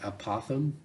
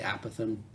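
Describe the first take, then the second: First: It sounds like opossum with a lisped sound. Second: It begins with the sound of apathetic. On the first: "almost like an opossum, but kind of a weird lisp" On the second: "I guess I'm kind of apathetic that way"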